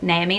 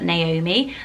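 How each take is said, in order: First: The middle O sound is dropped. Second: The middle O sound is clearly pronounced. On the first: The speaker calls it wrong. "people say Naomi, like Naomi" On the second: The speaker calls it right. "not Naomi, and don't pronounce the O"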